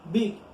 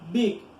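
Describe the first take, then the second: No difference in how they are said.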